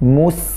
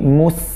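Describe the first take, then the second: First: The s sound is light and thin. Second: The s sound is light and thin.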